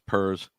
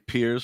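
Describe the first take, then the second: First: The word rhymes with 'purrs'. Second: The word rhymes with 'fears'. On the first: The speaker calls it right. "now everybody yells at me because it's pers" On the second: The speaker calls it wrong. "I used to always say peers because it sounded good"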